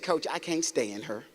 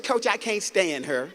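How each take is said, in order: First: Low, soft, slow quoted reply; low and slow, owning up to the coach; player's sullen answer. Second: Slow, drawn-out quoted reply; imitating a player insisting on her grudge; player's answer repeated. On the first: Retold or imitated. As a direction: mimic a player's quiet confession. Player's low grudging answer retold. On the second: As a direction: repeat it slowly for the coach, firmer.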